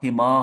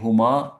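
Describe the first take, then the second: First: The first vowel is an i sound. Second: The first vowel is an u sound.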